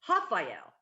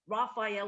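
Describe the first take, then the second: First: The name begins with an H-like sound. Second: The name begins with an English R sound. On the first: The speaker calls it right. "R's sound like H's" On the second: The speaker calls it wrong. "it looks like Raphael on paper"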